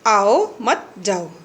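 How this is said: There is a pause right after 'mat'. Do not come, go. "आओ मत यानी आइए नहीं, जाओ, जाइए।"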